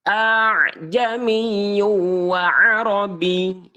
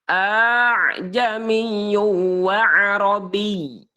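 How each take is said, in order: Both takes have the same delivery.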